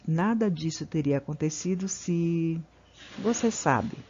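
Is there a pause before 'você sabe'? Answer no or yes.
Yes. There is a pause before 'você sabe'. The speaker calls it right. "Olha como é diferente"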